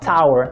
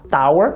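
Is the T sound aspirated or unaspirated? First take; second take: aspirated; unaspirated. First: The T is said with a puff of air. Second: The T is said without a puff of air. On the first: The speaker calls it right. "começar a falar tower" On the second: The speaker calls it wrong. "parar de falar tower"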